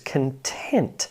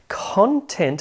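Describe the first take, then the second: First: The stress is on the second syllable. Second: The stress is on the first syllable. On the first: It is the adjective meaning satisfied. "and an adjective" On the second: It is the noun meaning material that was written. "This is a noun"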